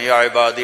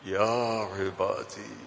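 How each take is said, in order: First: It is recited in an even, plain tone. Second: It is said in a warm, affectionate tone. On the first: It is read without conveying feeling. The speaker calls it wrong. "जैसे ही हमारे कारी पढ़ते हैं ... ये नहीं है" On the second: It conveys boundless love for the addressee. The speaker calls it right. "इसमें जो मोहब्बत है ... तो वो कहता है या इबादी"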